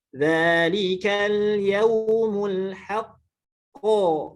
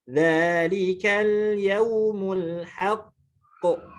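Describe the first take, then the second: First: The final q carries a full vowel. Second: The final q ends in a brief echo. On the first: "itu harokat" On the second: "Kalau qol qalah"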